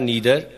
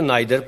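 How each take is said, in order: First: The first vowel sounds like 'ee'. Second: The first vowel sounds like 'eye'. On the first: "या नीदर, दोनों तरह acceptable है" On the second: "नाइदर पढ़ें"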